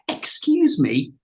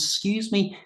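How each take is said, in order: First: The opening 'ex' sound is clearly pronounced. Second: The opening 'ex' sound is dropped entirely. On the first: The speaker is upset or being aggressive. The speaker calls it wrong. "Put that X in there, the X that you're taught in a classroom to say" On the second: The speaker is being friendly. The speaker calls it right. "we drop the X altogether and it just becomes"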